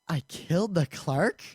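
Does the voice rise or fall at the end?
rise. It is said as a puzzled question, rising.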